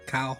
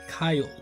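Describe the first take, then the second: First: The name is said in an Australian accent. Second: The name is said in an American accent.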